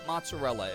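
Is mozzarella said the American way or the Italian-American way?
American. It is said with a plain American pronunciation. A non-Italian may say the word however they like. "I'm not Italian at all. I can say it mozzarella if I want to"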